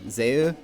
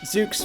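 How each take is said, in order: First: It is said French-style, ending in a vowel. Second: It is said English-style, ending in 'ks'. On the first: "a French word, which would be pronounced something like" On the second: "Zooks feels correct"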